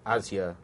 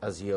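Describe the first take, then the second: First: Azure said AZ-yer; stress on first syllable. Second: Azure said az-YOOR; stress on second syllable. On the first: Host offering the other pronunciation, Azure as AZ-yer. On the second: Host offering one pronunciation, Azure as az-YOOR. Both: Shown as a demonstration. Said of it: "whether we should pronounce this as".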